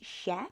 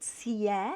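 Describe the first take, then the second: First: The consonant is a soft sh-like sound. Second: The consonant is a hard s sound. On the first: The speaker calls it right. "which makes it she" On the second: The speaker calls it wrong. "don't pronounce it sie"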